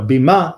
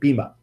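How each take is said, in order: First: The word has a Hebrew pronunciation. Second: The word has an American pronunciation. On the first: "the correct Hebrew pronunciation" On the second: "the American pronunciation"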